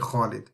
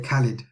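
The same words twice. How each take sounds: First: It begins with a rough rasp from the throat. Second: It begins with a plain hard K sound. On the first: The speaker calls it right. "but it's actually Khalid" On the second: The speaker calls it wrong. "like English people, they say Khalid"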